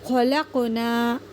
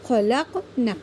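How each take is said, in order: First: The final vowel is drawn out long. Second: The final vowel is cut short quickly. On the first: We created. The speaker calls it right. "सिर्फ हमने नून अलिफ ज़बर ना को खींचना था" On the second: Those women created. The speaker calls it wrong. "हमने खींचने की जगह उसको जल्दी पढ़ दिया"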